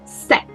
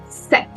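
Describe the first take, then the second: The two takes are said the same way.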